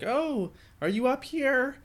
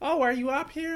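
First: The voice sounds like an old lady. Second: The voice sounds like a young woman.

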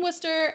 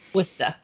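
First: It is said in a Connecticut accent. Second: It is said in a Massachusetts accent. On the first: "I'll go back to my normal Connecticut accent now" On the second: "you can't say Worcester without saying it in a Massachusetts accent"

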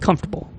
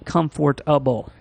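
First: It is said quickly with syllables squeezed together. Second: It is said slowly with every syllable spelled out. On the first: "if you say it quickly, the way most English speakers say it" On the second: "if you stretch it out like that"

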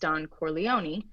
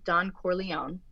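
First: The final E of the name is clearly voiced. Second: The final E of the name is silent.

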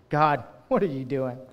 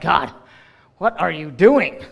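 First: The tone is reverent and full of wonder. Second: The tone is exasperated and full of frustration. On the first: The speaker is amazed by what God is doing. "sometimes we say it with a little bit of reverence" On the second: Things did not go the way they were supposed to. "other times we look at God and we're like"

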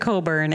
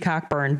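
First: The name is said without a k sound. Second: The name is said with a k sound. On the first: "it's been Coburn. And I would say that's the safer pronunciation" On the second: "it could potentially be Cockburn"

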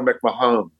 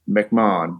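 First: The middle H sound is pronounced. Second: The middle H sound is not pronounced. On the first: This is how others announced the name. The speaker calls it wrong. "Everybody would announce" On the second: This is how the name is said at home. The speaker calls it right. "because we don't use a H. McMahon is how we would say it in the UK"

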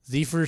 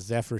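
First: The first vowel is a long 'ee' sound. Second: The first vowel is a short 'eh' sound. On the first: The speaker calls it wrong. "Zephyr sounds like reefer" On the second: The speaker calls it right. "Zephyr sounds like heifer"

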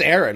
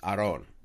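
First: The name is said in the common English pronunciation. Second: The name is said in its original, non-English pronunciation. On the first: This is the version the family settled for. "It's just Aaron" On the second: This is how the name is supposed to be said. "my first name technically should be pronounced Aron"

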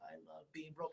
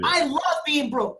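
First: It is said flatly, without much feeling. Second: It is said loudly, with strong passion. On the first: The words are said without believing them. The speaker calls it wrong. "He was like" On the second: The words are said as if truly meant. The speaker calls it right. "Say it with passion"

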